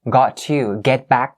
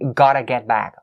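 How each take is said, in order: First: Both words of 'got to' are said separately. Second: 'Got to' is blended quickly into 'gotta'. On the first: "It's actually got to" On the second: "when we say it fast"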